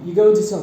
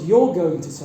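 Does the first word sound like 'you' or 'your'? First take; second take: you; your. First: The first word sounds like plain 'you'. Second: The first word sounds like 'your'. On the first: The speaker calls it right. "native speakers will simply pronounce it as you" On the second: The speaker calls it wrong.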